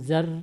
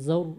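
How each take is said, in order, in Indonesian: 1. Bunyi r tipis, dengan bibir melebar. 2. Bunyi r tebal, dengan bibir membulat. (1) "tadi ibu terdengar seperti tipis" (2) "Dia tebal dibaca"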